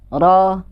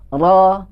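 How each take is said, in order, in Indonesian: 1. Vokalnya diucapkan dengan mulut terbuka, tidak membulat. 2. Vokalnya diucapkan dengan mulut terbuka, tidak membulat.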